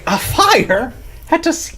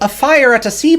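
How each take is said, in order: First: A breathless, incredulous Irish accent. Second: A cartoonish, leprechaun-like Irish accent. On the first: The speaker calls it right. "incredulously, and like, if you're always out of breath" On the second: The speaker calls it wrong. "I sound like a leprechaun"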